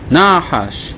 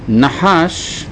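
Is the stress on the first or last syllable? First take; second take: first; last. First: The stress is on the first syllable. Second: The stress is on the last syllable.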